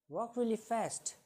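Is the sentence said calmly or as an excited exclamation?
exclamation. It is said in a strong, exclamatory tone. It expresses strong feeling. "When we change the tone of it"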